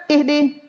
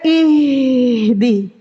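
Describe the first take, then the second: First: "Ihdi" quick, h cut short without flow; hurried ha. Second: "ihdi" slow, with the h breath held long; flowing ha. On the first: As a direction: rush through the h in "Ihdi". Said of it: "Jangan cepat-cepat". ("Ihdi" cepat, ha tidak mengalir) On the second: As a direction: draw out the h of "ihdi". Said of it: "Menghilangkan sifat rokhwa". ("ihdi" pelan, ha mengalir panjang) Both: Shown as a demonstration.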